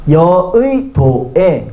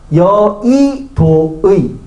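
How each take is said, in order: First: The second syllable uses 'i', the last 'e'. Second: The second syllable uses 'i', the last 'ui'.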